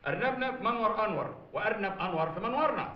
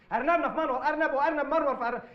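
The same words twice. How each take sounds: First: أرنبنا في منور أنور said carefully, every sound clear; tongue twister. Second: أرنبنا في منور أرنب, words tangled and swapped around; fumbled tongue twister. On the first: Shown as a demonstration. Teacher demonstrates the tongue twister for the father. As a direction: recite the rabbit tongue twister crisply. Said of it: "ما قول". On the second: Real, not acted. Father defiantly attempts the teacher's twister and botches it. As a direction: garble the twister, half laughing. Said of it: "بتستغل نقطة ضعفي مع الره".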